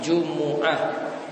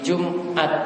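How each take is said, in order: First: The m carries a u vowel, giving three syllables. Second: The m carries no vowel, giving two syllables. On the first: The speaker calls it right. "bisa mimnya itu di dhamma" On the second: The speaker calls it wrong. "salah satu cara baca mimnya di sukun"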